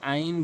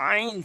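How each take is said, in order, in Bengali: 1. প্রথম ধ্বনিটি সাধারণ, কোনো চাপ ছাড়া। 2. প্রথম ধ্বনিটি জোর দিয়ে চাপযুক্ত। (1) "কখনো আইন বলবেন না" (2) "আইন চাপ দিয়ে"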